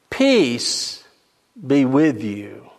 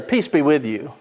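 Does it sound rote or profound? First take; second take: profound; rote. First: It is said in a weighty, profound way. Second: It is said in a rote, offhand way.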